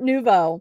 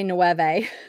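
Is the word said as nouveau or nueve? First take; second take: nouveau; nueve. First: The word is said like nouveau. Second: The word is said like nueve. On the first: The speaker calls it right. "So yes, it's Art Nouveau" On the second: The speaker calls it wrong. "I used to say Nueve"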